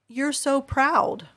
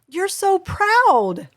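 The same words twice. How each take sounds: First: It is said in a flat, low tone. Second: It is said in a high, excited tone.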